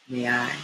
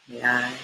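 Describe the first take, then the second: Both takes have the same delivery.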